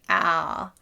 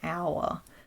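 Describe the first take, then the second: First: The vowel is a single flat sound. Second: The vowel is stretched out, Australian style.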